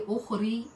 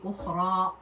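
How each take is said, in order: First: The word ends with an 'ee' vowel. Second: The word ends with an 'ah' vowel. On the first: The speaker calls it wrong. "you don't say ukhri because it's ya" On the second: The speaker calls it right. "so you say ukhra, you pull up"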